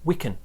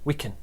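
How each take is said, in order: First: The word 'can' is said with a weak vowel. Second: The word 'can' is said with a weak vowel.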